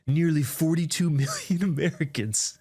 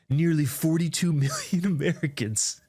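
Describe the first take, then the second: First: It is read in a put-on, ominous scary voice. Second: The same.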